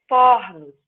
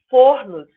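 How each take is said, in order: First: Fornos with open O; fornos, the first O opened; open O plural. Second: Fornos with closed O; wrong plural. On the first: Teacher shows the correct plural. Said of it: "Eu também abro o O". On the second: Teacher voices the wrong plural first. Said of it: "Não". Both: Shown as a demonstration.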